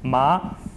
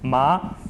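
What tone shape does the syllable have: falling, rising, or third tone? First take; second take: rising; rising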